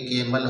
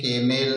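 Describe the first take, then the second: First: The final syllable is a reduced plain 'l' sound. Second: The final syllable has a full 'e' vowel before 'l'. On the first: The speaker calls it right. "ई एल को हम ल ही उच्चारण करेंगे तो ये केमल हो गया" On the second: The speaker calls it wrong. "केमेल नहीं पढ़ेंगे"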